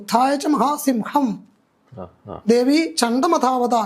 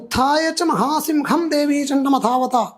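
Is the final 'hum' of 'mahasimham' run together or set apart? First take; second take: set apart; run together. First: The word is split, ending in a separate 'hum'. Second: The word is run together as one 'simham'. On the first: The words are heard as 'great sword' with a war cry. The speaker calls it right. "ഹം ഹം എന്ന ശബ്ദത്തോടു കൂടി" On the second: The word is heard as 'great lion'. The speaker calls it wrong. "എന്നാണ് പലരും ജപിക്കുന്നത്"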